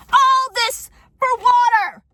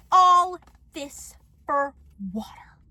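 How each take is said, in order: First: High, loud, drawn-out cry of disbelief; outraged shout. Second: Word by word, with long pauses; slow aghast repeat. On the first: Vlogger reacting to a neighbor's note, outraged shout. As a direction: yell it slowly, theatrically aghast. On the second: Vlogger repeating the neighbor's note in disbelief, slow and aghast. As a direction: start loud, then let each word drop away. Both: Acted.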